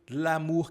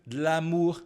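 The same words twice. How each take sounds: Both takes have the same delivery.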